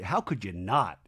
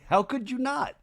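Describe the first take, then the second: First: Said in the usual way. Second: High laughing rising question; laughing repeat. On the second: Shown as a demonstration. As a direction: laugh it out, pitched up.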